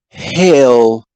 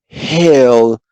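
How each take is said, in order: The two takes are said the same way.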